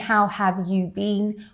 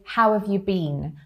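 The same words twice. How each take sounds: First: The word 'you' is fully sounded out. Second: The word 'you' is reduced to 'ya'. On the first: The speaker calls it wrong. "instead of saying" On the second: The speaker calls it right. "that you sounds a bit more like a ya"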